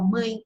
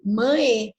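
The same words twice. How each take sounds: First: Mãe as spoken, nasal and gliding to an I; nasal diphthong. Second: Mãe as written, with a clear final E; spelling pronunciation. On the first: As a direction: say mãe like "mãin". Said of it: "mas a nasal, ela, ela acaba transformando". (mãe nasal, terminando em som de I) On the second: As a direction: sound out the E ending of mãe. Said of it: "você escreve mãe". (mãe como se escreve, com E no final) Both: Shown as a demonstration.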